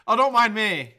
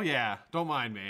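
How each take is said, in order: First: Loud sarcastic "Oh, don't mind me" with "dont" punched; loud mock apology. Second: Said in the usual way. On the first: Shown as a demonstration. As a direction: call out "don't mind me" to the viewers. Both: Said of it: "It's a live show".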